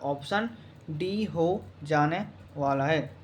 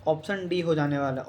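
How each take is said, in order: First: Word by word with pauses, "option ... D ... हो ... जाने ... वाला है"; slow, spaced-out repeat. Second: Said in the usual way. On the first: Real, not acted. Teacher confirming the answer to students, slow and measured. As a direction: dictate it slowly, softening as you go.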